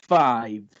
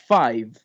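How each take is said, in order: Both takes have the same delivery.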